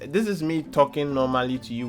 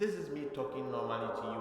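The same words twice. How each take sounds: First: The voice sounds dry, with no added echo. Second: The voice sounds spacious, with reverb added. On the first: "without reverb" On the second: "with reverb now"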